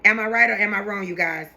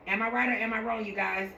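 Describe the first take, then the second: First: Said in the usual way. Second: Much softer second ask; softer repeat. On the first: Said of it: "asks viewers". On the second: Shown as a demonstration. Vlogger asking viewers again, much softer. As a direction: pull it back and ask again gently. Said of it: "repeats question softer".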